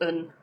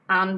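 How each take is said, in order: First: The word has a reduced schwa vowel. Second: The word has a full vowel. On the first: "an becomes un" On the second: "an becomes un"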